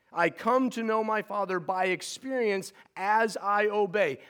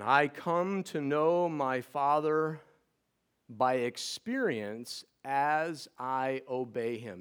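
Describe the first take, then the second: First: Higher, with a rise tying it to obey; emphatic restatement. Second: Slowed right down, every word weighed; slow emphatic statement. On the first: Preacher restating truth four so the two stay joined. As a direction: push through to obey as one thought. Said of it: "Please do not separate those two". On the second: Preacher slowly stating truth number four to the church. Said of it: "Truth number four". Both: Shown as a demonstration.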